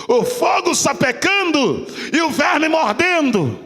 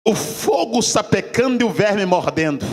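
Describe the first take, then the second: First: Shouted and drawn out, rising in force; fiery pulpit cry; preacher's shout. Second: Said in the usual way. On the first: Acted. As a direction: proclaim it full force to the church. Repeats line, then preaches it.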